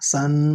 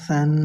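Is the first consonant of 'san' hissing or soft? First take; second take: hissing; soft. First: The first consonant has a hissing, whistling sound. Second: The first consonant is soft, without any hissing. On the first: The speaker calls it wrong. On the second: The speaker calls it right.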